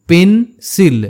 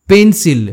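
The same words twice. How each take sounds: First: "pencil" broken in two, পেন, pause, সিল; teacher sounding out "pencil" in two beats; split into syllables. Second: Said in the usual way. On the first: Shown as a demonstration. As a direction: say "pencil" with a gap between its syllables. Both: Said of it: "দুটো সিলেবেলে ভাঙতে হয়".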